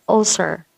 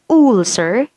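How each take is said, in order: First: "ulcer" with a short middle vowel, falling tune; correct pronunciation. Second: "ulcer" starting with a long oo, ool-ser; wrong pronunciation. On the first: Teacher corrects the wrong version, short-vowelled "ulcer". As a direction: say "ulcer" starting on a short, relaxed mid vowel. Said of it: "You say ulcer". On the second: Teacher shows what not to say, "ulcer" as ool-ser. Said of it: "you don't say ulcer". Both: Shown as a demonstration.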